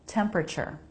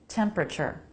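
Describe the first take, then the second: No difference in how they are said.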